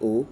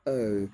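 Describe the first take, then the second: First: The vowel is one steady pure sound. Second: The vowel glides closed toward another sound. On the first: The speaker calls it wrong. "They say O instead of O" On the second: The speaker calls it right. "which is a diphthong, a closing diphthong"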